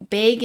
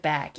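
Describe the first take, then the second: First: "big" said as BAYG; regional bag vowel. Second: Said in the usual way. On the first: Shown as a demonstration. Showing regional "big" for bag, ay vowel. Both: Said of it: "big instead of bag".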